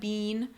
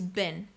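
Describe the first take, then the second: First: The vowel is long, as in cheese. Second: The vowel is short, as in bin. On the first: The speaker calls it wrong. "they make the e sound like in cheese" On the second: The speaker calls it right. "It's a shortened I sound"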